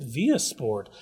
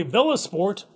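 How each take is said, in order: First: "Via" said VEE-uh, no L; VIA without the L. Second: "Villa" said with the L sounded. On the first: Host querying the venue's name, "Via" without an L. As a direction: drop the L, making it "Via". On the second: Radio host reading the venue's name, "Villa" with its L. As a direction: say "Villa" as written, L pronounced. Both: Real, not acted. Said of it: "or is it Via Sport".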